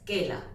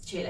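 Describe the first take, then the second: First: The name starts with a hard k sound. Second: The name starts with a ch sound. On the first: This is how an Italian reader would read it. "si tú lo lees en italiano, dirías quela" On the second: This is how a Spanish reader would read it. "no dirías chela"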